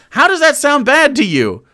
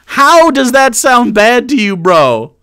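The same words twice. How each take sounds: First: Said in the usual way. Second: Louder, HOW punched hard; exasperated repeat. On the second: Real, not acted. Streamer repeats to the clip, louder, with HOW stressed. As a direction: hit HOW, pressing the point.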